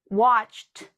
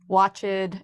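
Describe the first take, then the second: First: The ending is a strong t sound. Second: The ending is not a plain t sound. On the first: The speaker calls it right. "I just made that strong t sound" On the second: The speaker calls it wrong. "notice I did not say"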